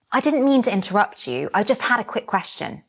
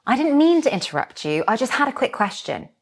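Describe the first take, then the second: First: Said in the usual way. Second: Model line read. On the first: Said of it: "the second time, repeat it with me". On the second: Shown as a demonstration. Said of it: "I will say the line".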